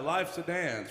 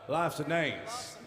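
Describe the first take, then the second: First: It is said in a plain, neutral accent. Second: It is said in an East Tennessee accent.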